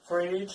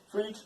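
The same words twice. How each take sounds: First: The vowel is exaggerated and drawn out. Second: The vowel is short and natural. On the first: "that is a exaggeration for the pronunciation" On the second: "on the English normal, you have to use uh, more short"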